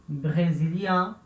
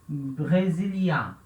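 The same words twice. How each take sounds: Both takes have the same delivery.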